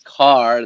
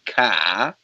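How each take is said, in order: First: It is said with a standard American accent. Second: It is said with a Boston accent. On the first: "instead of car" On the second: "they say ka"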